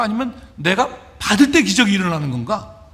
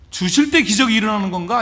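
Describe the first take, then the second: First: 받을 때 set apart after a pause, punched; stress on 받을. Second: 주실 때 lifted as the first alternative; stress on 주실. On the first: Disciple wondering about his own part, stress on 받을. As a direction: hit 받을 as the opposing alternative. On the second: Disciple wondering where miracles start, stress on 주실. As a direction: punch 주실, then let the question rise. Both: Acted. Weighs giving against receiving.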